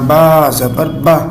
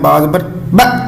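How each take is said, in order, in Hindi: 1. अंतिम स्वर की लंबाई मध्यम और एक समान होती है। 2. अंतिम स्वर एक झटके के साथ काट दिया जाता है। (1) "ना लंबा ना झटका, बिल्कुल दरमियाना से पढ़ना।" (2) "ये झटका है।"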